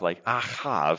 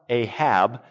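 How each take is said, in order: First: The word ends with a V sound. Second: The word ends with a B sound.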